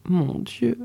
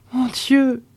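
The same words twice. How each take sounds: First: A soft, hushed "Mon Dieu" under the breath; quiet despair. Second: "mon Dieu!" pitched up high in anguish; "mon Dieu!" rising into a pained, higher cry; despairing cry. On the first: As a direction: murmur "Mon Dieu" to yourself, lost. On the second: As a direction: let the second "mon Dieu!" break out higher. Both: A narrator's reading. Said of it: "fit à part soi la voyageuse".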